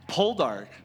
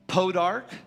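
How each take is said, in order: First: The word is said with an L sound. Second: The word is said without an L sound. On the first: The speaker calls it right. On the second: The speaker calls it wrong.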